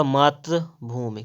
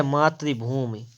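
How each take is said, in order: First: "मातृभूमि" as maatr-bhoomi, no clear i; corrected vowel. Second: "मातृभूमि" as maatri-bhoomi; wrong vowel. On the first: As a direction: keep tr short in "मातृभूमि". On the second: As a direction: put an i after tr in "मातृभूमि". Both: Shown as a demonstration. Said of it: "तो हो जाएगा आपका".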